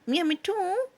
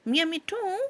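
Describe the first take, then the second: The two takes are said the same way.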